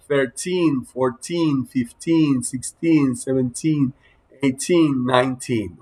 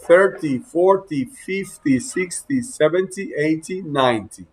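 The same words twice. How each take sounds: First: Put-on thirteen to nineteen, each with a long stressed "teen" that falls; stress on final TEEN. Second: Thirty to ninety, first syllable punched, short "ty" after; stress on first syllable. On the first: Teacher showing correct pronunciation, stressed "teen" ending in thirteen to nineteen. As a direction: lean on the last syllable, "teen", in thirteen through nineteen. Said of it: "en el tin va la máxima acentuación".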